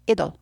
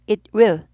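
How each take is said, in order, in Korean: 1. 두 단어가 줄어서 짧은 음절 한 쌍으로 발음됩니다. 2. 두 단어 모두 완전하고 따로따로 발음됩니다. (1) "it'll, it'll 이렇게 돼요" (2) "It will 해주란 말"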